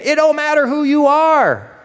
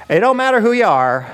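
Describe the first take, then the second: First: DON'T MATTER WHO YOU held very high, dropping on "are"; "It don't matter who you are" as a high, ringing declaration; emphatic repeat. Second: DON'T MATTER raised high, falling on "are"; "It don't matter who you are" lifted as a famous line; quoted lyric. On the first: Real, not acted. Repeats lyric emphatically as [name]'s point. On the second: Retold or imitated. Quotes [name] lyric.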